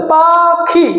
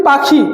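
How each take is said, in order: First: "পাখি" drawn out as পা ... খি; slow, counted-out "পা-খি"; split into syllables. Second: Said in the usual way. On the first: Shown as a demonstration. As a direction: separate the two beats of "পাখি". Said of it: "কটা syllable?". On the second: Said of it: "আমি যদি বলি".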